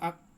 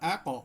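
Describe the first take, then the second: First: The final consonant is cut off abruptly. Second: The final consonant is released with a bounce. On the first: The speaker calls it wrong. "Sound অফ করে দিই" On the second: The speaker calls it right. "কফে করতে হয় কলকলা"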